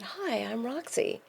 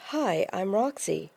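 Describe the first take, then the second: First: Said in the usual way. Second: Lightly imitated German accent; a hint of a German accent, drawn out slowly. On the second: Tall German man introducing himself to Roxy, light German accent. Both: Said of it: "in a German accent".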